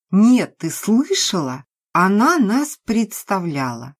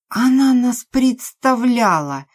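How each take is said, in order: First: Higher, louder indignant repeat; indignant to friend. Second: Higher, louder, slow indignant cry; outraged repeat. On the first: Maria repeats it to Lena, raised and indignant. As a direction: stir up her friend in outrage. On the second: Drunk Maria throws Nastya's words back, slow and loud. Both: Acted.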